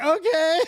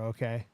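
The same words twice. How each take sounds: First: High, loud, delighted okay; giddy relief. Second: Low, soft little okay; comply quietly, pitched well down; subdued reply. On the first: Test-taker turning back into the facility, giddy. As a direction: let it leap up brightly in pitch. Realizes the test is ending well. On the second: Test-taker answering the examiner's next instruction, subdued. Obedient replies to driving examiner. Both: Retold or imitated.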